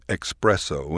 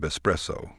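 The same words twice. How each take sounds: First: It is said with an x sound, like expresso. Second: It is said with a plain s, no x sound. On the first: The speaker calls it wrong. "No X needed" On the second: The speaker calls it right. "No X needed"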